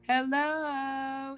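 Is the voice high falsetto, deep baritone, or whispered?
high falsetto. It is said in a high falsetto.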